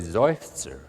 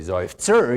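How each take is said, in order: First: The first syllable is louder than the second. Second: The second syllable is as loud or louder. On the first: The speaker calls it right. "the zer is lighter than the zoif" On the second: The speaker calls it wrong. "you don't say zoif-zer"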